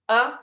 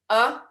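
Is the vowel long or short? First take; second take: short; short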